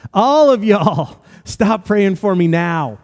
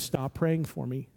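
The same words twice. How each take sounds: First: Loud, high, slow shout of a command; yelled out. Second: Quiet warning. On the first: Russ shouting at everyone praying to stop now. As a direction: stop the whole room with a drawn-out yell. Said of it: "And he yelled it out". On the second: Russ leaning over to warn the narrator, quiet and slow. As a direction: murmur it under the prayers, slowly. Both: Retold or imitated.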